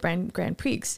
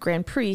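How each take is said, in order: First: Grand Prix is pronounced the English way. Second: Grand Prix is pronounced the French way. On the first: The speaker calls it wrong. "he said it the wrong way" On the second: The speaker calls it right. "instead of Grand Prix"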